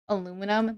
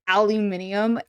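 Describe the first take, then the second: First: The word is said with four syllables. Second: The word is said with five syllables. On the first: "instead of saying aluminum" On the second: "British people... they say aluminium"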